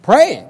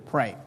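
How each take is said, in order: First: "Pray" called out loud and high. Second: Soft low single word; quiet pray. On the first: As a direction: proclaim "Pray" with force. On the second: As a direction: say it softly and low. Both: Shown as a demonstration. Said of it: "Here's what you do".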